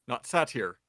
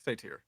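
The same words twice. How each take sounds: First: Satyr said SAT-eer with a short a as in cat; Not satyr, short A, SAT-eer; wrong pronunciation. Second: Satyr said SAY-teer, long a; correct pronunciation. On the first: Game master says the wrong way to avoid. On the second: Game master corrects the word, saying it the right way. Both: Shown as a demonstration.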